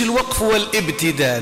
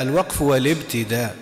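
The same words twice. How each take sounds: First: الوقف والابتداء with the connecting hamza of الابتداء pronounced, wa-al-ibtida; wrong pronunciation. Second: الوقف والابتداء with the hamza of الابتداء dropped, wal-ibtida; correct pronunciation. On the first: Teacher shows students the wrong way to say it, hamza sounded in والابتداء. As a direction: sound the hamza in والابتداء as a full glottal stop. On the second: Teacher gives students the right reading, hamza of والابتداء dropped. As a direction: glide straight into والابتداء, no glottal stop. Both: Shown as a demonstration. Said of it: "ما نقولوش".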